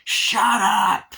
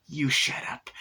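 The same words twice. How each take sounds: First: High, loud drawn-out yell; imitated exasperated shout; Chucky. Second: Said in the usual way. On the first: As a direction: bellow it to silence her. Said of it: "Chucky just goes".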